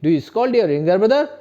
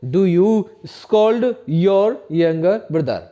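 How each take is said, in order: First: Slow, clear, louder; teacher repeats the question slowly for students; slower model sentence. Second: Very slow, every word separate; teacher models an English question very slowly; slow model sentence. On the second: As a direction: dictate it slowly for the class to repeat. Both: Shown as a demonstration. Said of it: "क्या बोलेंगे?".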